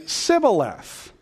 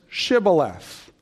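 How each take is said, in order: First: The word begins with an 's' sound. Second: The word begins with a 'sh' sound. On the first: The speaker is an Ephraimite. The speaker calls it wrong. "Ephraimites couldn't pronounce the sh sound of the word. So they would say Sibboleth" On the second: The speaker is a Gileadite. The speaker calls it right. "the password was Shibboleth"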